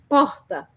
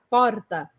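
First: A Rio R, made with almost no tongue. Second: A Spanish-like R, tongue vibrating on the palate.

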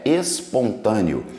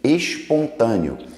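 First: The s before t sounds like s. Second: The s before t sounds like sh. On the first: The speaker calls it right. "O certo, a pronúncia é espontâneo" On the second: The speaker calls it wrong. "temos a mania de falar o som do S, falar com X"

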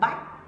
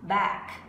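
First: The vowel is not an open ae sound. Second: The vowel is an open ae sound. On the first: The speaker calls it wrong. "Có một số bạn đọc là back" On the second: The speaker calls it right. "âm này là âm A-E ha"

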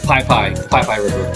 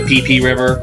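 First: The name's vowels sound like 'eye'. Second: The name's vowels sound like 'ee'. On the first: The speaker calls it right. "He said Pai Pai" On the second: The speaker calls it wrong. "I said it wrong"

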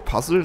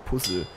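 First: The word has an English-style pronunciation. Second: The word has a German-style pronunciation. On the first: "wäre Puzzle natürlich, glaube ich, richtiger, weil es ja eigentlich ein englischer Begriff ist" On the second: "Ich sag immer Puzzle"

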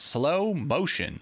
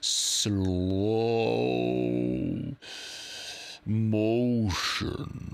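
First: It is said at normal speed. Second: It is said very slowly, drawn out.

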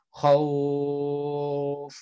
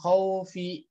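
First: The word ends with a consonant sound. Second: The word ends with a vowel sound. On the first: The reading stops at this word. "diwakaf, berhenti ... Jadi bacanya" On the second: The reading continues into the next word. "Ketika diwasol dibacanya"

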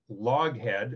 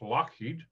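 First: The name is said ending in 'head'. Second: The name is said ending in 'heed'. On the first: This is how people commonly read the spelling. "which is Loughead, as people pronounce it" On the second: This is the original Scottish pronunciation. "but it's Scottish, so it's Lockheed"

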